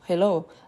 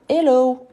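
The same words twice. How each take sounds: First: The initial h sound is pronounced. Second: The initial h sound is dropped. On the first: This is how it is said in English. "au lieu de dire" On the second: This is how people in France say it. "on ne prononce pas le H des mots anglophones"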